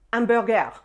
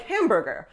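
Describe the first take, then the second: First: "hamburger" the French way, silent H, ending "-gair"; French accent. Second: Said in the usual way. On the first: Shown as a demonstration. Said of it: "say them with the French accent". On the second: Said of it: "say English words in French".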